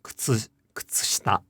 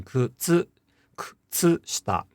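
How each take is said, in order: First: Kutsushita with the u of tsu voiceless; devoiced u. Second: Kutsushita with a clearly voiced tsu; articulated u. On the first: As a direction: whisper through kutsushita, voicing only the final a. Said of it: "again, it's not". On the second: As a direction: sound out the u of tsu in kutsushita, slightly separated. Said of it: "partially or fully articulate the u". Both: Shown as a demonstration.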